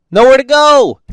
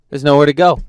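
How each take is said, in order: First: Louder and higher, fed up; exasperated outburst. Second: Said in the usual way. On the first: Real, not acted. Driver venting about being boxed in, exasperated shout. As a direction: shout "Nowhere to go!" in disbelief.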